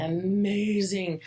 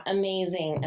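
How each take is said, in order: First: "amazing" slowly stretched on the middle syllable; slow, savoured "amazing"; drawn-out emphasis. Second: Said in the usual way. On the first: Real, not acted. Repeats praise for emphasis.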